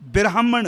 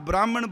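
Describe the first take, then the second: First: It begins with bira, an i sound between b and r. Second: It begins with bra and has no vowel between b and r. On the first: The speaker calls it right. "इत्थे बब्बे नूं सिहारी लगी है" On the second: The speaker calls it wrong. "ना ब्राह्मण बोलना है"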